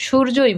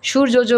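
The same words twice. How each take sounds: First: সূর্যই said as shur-jo-i, J sounded once; no repeated syllable in সূর্যই; single J. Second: সূর্যজ said as shur-jo-jo; সূর্যজ with an extra jo tacked on; wrongly doubled J. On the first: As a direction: say সূর্যই with one jo. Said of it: "বললে আমরা সূর্যই বলি". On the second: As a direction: repeat the final jo in সূর্যজ. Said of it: "সূর্যজ বলি না". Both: Shown as a demonstration.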